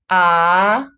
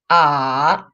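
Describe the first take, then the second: First: The pitch rises from mid to high. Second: The pitch dips low then rises again. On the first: "the second tone, it's going up" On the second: "So the full third tone is"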